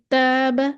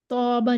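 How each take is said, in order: First: "ताबा" with a thin, light long alif; बारीक अलिफ. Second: "तौबा" with a heavy, dark first vowel; broad, rounded long alif in "तौबा"; गलत मोटा अलिफ. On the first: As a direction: keep the first vowel of "ताबा" light and fronted. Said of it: "इसको हम बारीक पढ़ेंगे". ("ताबा" का अलिफ बारीक पढ़ें) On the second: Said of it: "नहीं पढ़ेंगे". ("तौबा" का अलिफ मोटा करके) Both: Shown as a demonstration.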